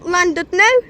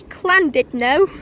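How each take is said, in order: First: The name is said with an English pronunciation. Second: The name is said with a Welsh pronunciation.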